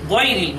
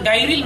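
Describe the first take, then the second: First: The first vowel sounds more like o. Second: The first vowel sounds like an open a. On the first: The speaker calls it right. "গয়রিল বলতে হবে" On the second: The speaker calls it wrong. "অনেকে বলে গায়রিল মাগদুবি, এটি ভুল"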